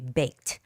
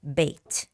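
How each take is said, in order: No difference in how they are said.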